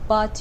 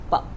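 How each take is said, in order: First: The final T is fully released. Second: The final T is a glottal stop. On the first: "instead of saying but" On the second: "you can say but"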